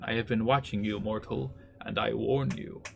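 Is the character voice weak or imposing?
weak. It is said in a weaker character voice.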